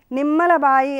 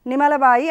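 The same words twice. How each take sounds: First: నిమ్మల బాయి with the మ్మ held double; doubled consonant. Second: నిమ్మల బాయి with a short single m, as "nimala"; wrong reading, one quick m in నిమ్మల; without doubling. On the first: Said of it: "ఒత్తు ఒకటి చేరితేనే అది నిమ్మల బాయి". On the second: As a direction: drop the doubling of మ్మ in నిమ్మల. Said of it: "లేదు అంటే ఏమవుతుంది". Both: Shown as a demonstration.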